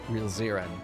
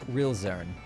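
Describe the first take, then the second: First: An extra vowel comes between the r and n. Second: No vowel comes between the r and n.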